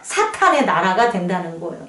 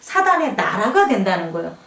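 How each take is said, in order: First: The middle consonant is an aspirated t. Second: The middle consonant is a plain, unaspirated d. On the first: The speaker calls it right. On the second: The speaker calls it wrong.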